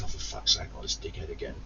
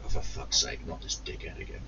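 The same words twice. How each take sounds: First: Hushed fed-up grumble under the breath; muttered inner groan. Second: Low muttered under the breath, fed up; muttered inner groan. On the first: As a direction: mutter it barely voiced. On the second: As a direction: grumble it to yourself, unvoiced. Inner groan at annoying customer. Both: Retold or imitated.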